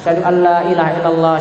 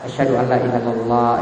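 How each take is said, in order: First: It is said loudly. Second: It is said softly.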